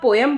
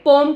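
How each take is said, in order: First: Two syllables, the second with an 'eh' vowel. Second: One syllable, the second vowel is dropped. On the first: The speaker calls it right. "पोएम is a very correct pronunciation" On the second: The speaker calls it wrong. "पोम कुछ नहीं होता"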